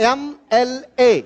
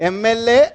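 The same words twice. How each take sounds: First: ఎంఎల్ఏ spelled out slowly as "em-el-ay", opening on the vowel "e"; teacher slowly pronounces ఎంఎల్ఏ for the class, each letter distinct; slow drilled pronunciation. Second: Said in the usual way. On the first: Shown as a demonstration. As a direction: draw out ఎంఏఎల్ఏ letter by letter, "em-el-ay". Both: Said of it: "అన్నిటిని పలకండి".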